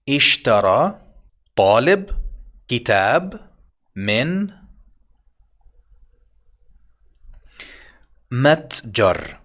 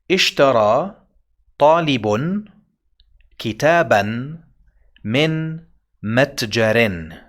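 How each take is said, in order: First: The nouns end without an added n sound. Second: The nouns end with an added n sound. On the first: "You know all of these vowels and special diacritics" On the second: "I will add this now. Hmm. Two dhammas"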